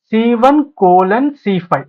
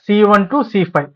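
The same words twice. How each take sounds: First: "సీ one కోలన్ సీ five" with the colon spoken as the word కోలన్; wrong way: say కోలన్ between the cells; read the colon aloud. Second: "సీ one to సీ five" with the colon read as the English word to; right way: say to between the cells. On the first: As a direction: spell out the colon literally. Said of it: "అంతేకాని సీ one కోలన్ సీ five అని చదవద్దు". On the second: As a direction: read the range as from C1 to C5. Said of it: "సీ one to సీ five అని చదవాలి". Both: Shown as a demonstration.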